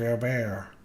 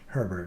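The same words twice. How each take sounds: First: The name is said with a French pronunciation. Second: The name is said with an English pronunciation. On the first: "as Mister" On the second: "his dearest old bosom friend as Herbert"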